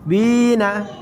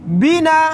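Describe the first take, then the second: First: The first vowel is long. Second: The first vowel is short.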